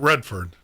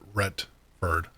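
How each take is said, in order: First: It is said with a D sound before 'ford'. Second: It is said with a T sound before 'ford'. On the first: The speaker calls it wrong. "Not Redford" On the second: The speaker calls it right. "but Retford, R E T F O R D"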